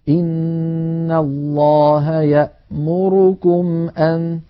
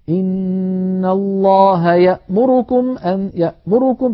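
First: إن الله يأمركم أن recited slowly, every vowel of يأمركم equal; correct recitation. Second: يأمركم recited higher with one vowel hurried and clipped; rushed vowel. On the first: Teacher demonstrates the correct Hafs reading. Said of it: "يعني مثلًا". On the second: Teacher demonstrates the wrong ikhtilas in Hafs. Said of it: "أما أن يقول الواحد". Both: Shown as a demonstration.

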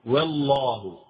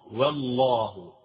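First: Said in the usual way. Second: والله drawn out slowly, the ل not leaned on; والله said slow with the ل passing lightly; slow light lam. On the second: Shown as a demonstration. Teacher shows students how the ل in والله passes. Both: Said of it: "لا تتكئ كثيرًا".

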